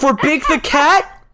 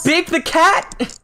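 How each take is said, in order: First: High, slow disbelieving question; incredulous. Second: High, slow, falling disbelief; incredulous. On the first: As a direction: ask it in disbelief. Teasing repeat of request. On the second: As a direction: say it flatly amazed. Repeated in disbelief. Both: Real, not acted.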